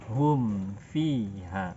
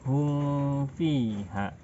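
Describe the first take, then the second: First: The lips close fully on the m sound. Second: The m is hidden without full lip closure. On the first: The speaker calls it right. "Kita rapatkan bibir kita" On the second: The speaker calls it wrong.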